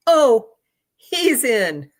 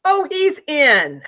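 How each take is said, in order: First: Offhand certainty. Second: "Oh, he's in" drawled slowly, high and loud; offhand certainty. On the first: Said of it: "says that to me like that". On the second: Conductor telling the sister her brother made it, slow and offhand. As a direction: toss it off like it's obvious. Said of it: "The conductor says that to me like that". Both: Retold or imitated.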